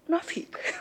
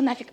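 First: The word is said softly with a French accent. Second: The word is said bluntly and harshly. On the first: The speaker calls it right. "по-французски так" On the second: The speaker calls it wrong. "так звучит плохо"

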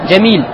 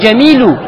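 First: The word ends on a bare consonant. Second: The word ends in a plain u vowel. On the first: "когда ты останавливаешься, ты останавливаешься на сукуне" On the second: "Не джамилю"

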